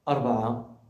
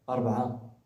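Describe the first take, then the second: The two takes are said the same way.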